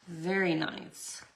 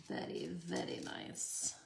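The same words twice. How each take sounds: First: Said in the usual way. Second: Much lower, softer mock-refined "veddy veddy"; deep, hushed put-on connoisseur voice; playful put-on voice. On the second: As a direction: say it low and quiet, tapping the r's in "very". Playful echo of own praise.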